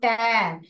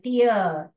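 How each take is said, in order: First: The word rhymes with air. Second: The word rhymes with ear. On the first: It means to rip something. "अगर ऐसे पढ़ेंगे टैर, किताब को फाड़" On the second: It means a drop from the eye. "टीयर माने आंसू"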